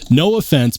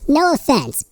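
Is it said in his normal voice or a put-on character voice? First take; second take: normal voice; character voice. First: It is said in his normal voice. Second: It is said in a put-on character voice.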